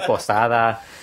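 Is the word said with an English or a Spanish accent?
Spanish. It is said with a Spanish accent. It is the word as said among Spanish speakers. "instead of posada"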